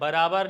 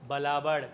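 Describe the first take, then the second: First: The second consonant is an 'r' sound. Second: The second consonant is an 'l' sound.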